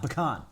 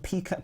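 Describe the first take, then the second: First: It is said in an American accent. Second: It is said in a British accent.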